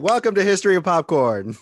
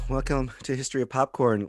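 First: It is said with more enthusiasm. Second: It is said with little enthusiasm.

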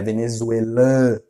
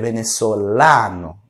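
First: The a vowel is nasalized. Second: The a vowel is open and oral. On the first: The speaker calls it wrong. "não tem esse an" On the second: The speaker calls it right. "é sempre oral, é sempre aberto, nunca nasal"

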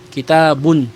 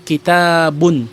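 The two takes are said the same way.

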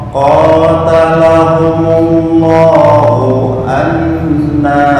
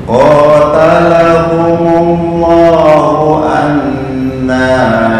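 The two takes are said the same way.

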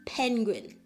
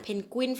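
First: It is said with English-style pronunciation. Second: It is said with Thai-style pronunciation. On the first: The speaker calls it right. "อ่านว่า" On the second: The speaker calls it wrong. "คนไทยเราอ่านเพนกวินฝรั่งงงเลย"

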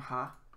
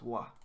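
First: It begins with an h sound. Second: It begins with a w sound. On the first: This is the usual reading of the character. "And then this one, ha" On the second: This is the occasional reading of the character. "is sometimes pronounced wa"

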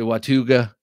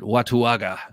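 First: The name is said with a sound dropped. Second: Every letter of the name is pronounced. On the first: "Some people say Watuga" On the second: "This is how I pronounce it. ... I choose to pronounce every letter"

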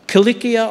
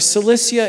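First: The word begins with a hard K sound. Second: The word begins with a soft S sound. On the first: "It's actually pronounced Kilikia" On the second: "the English language prefers a soft C sound, the S sound for that C"

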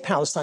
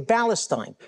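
First: The word begins with a clear P sound. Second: The word begins with a sound other than P. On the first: "They can't even say Palestine" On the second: "Arabs can't even pronounce the letter P. They say Palestine"

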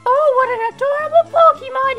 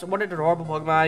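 First: It is said in a put-on mom's voice. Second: It is said in the speaker's natural voice.

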